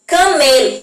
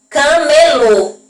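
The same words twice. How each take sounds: First: Said in the usual way. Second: "camelô" said very slowly with a closed, stressed final "lô". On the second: Shown as a demonstration. Teacher showing pupils how "camelô" ends. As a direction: draw out "camelô", stressing its closed last syllable. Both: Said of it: "o som da última sílaba".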